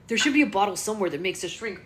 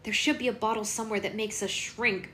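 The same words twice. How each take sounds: First: It is voiced in Connor's character voice. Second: It is voiced as a different character, not Connor.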